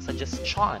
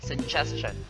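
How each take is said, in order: First: The stress falls away from the second-to-last syllable. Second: The stress falls on the second-to-last syllable. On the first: The speaker calls it wrong. "That's so awkward" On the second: The speaker calls it right. "But instead"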